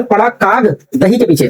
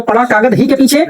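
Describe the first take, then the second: First: "काग" ends early, "दही" as its own word; group it "पड़ा काग, दही के पीछे"; break after काग. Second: "कागज" as one word, then "ही के पीछे"; group it "पड़ा कागज, ही के पीछे"; break after कागज. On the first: Teacher contrasts two readings for students, word break after "काग". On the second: Teacher contrasts two readings for students, deliberate word grouping at "कागज". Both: Shown as a demonstration. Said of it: "एक comma आप change करते हो".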